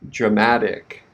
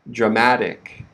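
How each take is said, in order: No difference in how they are said.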